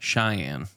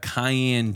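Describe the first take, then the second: First: The name does not sound like cayenne. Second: The name sounds like the pepper cayenne. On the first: The speaker calls it right. "Cheyenne would be the correct pronunciation" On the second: The speaker calls it wrong. "No, not Cheyenne"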